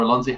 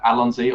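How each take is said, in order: First: "Alonzi" with a weak "uh" at the start; alternative pronunciation. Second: "Alonzi" opening with a short "a" as in "Al"; alternative pronunciation. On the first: Guest offering the other way, "Alonzi" starting on "uh". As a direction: say "Alonzi" as uh-LON-zee. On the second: Guest giving his channel name, "Alonzi" with a short-a start. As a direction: say "Alonzi" as AL-on-zee. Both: Shown as a demonstration. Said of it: "however you wanna say it".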